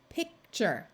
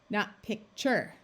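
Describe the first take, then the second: First: The stress is on the first syllable. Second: The stress is on the second syllable. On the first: The speaker calls it right. "we are going to accent the first syllable" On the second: The speaker calls it wrong.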